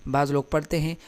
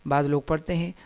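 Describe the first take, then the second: No difference in how they are said.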